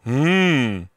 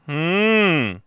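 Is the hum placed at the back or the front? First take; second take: back; front. First: The hum sits back in the throat. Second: The hum sits forward at the front. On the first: The speaker calls it wrong. "소리가 뒤에 붙으면 안 돼요" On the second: The speaker calls it right. "앞에 붙어야 돼요"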